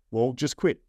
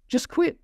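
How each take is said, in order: First: Said in the usual way. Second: Much higher, breezy wife voice; wife's flat advice. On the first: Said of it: "She's like". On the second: Retold or imitated. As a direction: toss it off lightly in a high voice. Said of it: "She goes".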